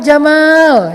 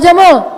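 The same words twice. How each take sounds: First: The second vowel is said long. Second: The second vowel is said short. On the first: It means cool or handsome. The speaker calls it right. "Kok panjang sih?" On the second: It means camel. The speaker calls it wrong. "Jangan Pak Jamal"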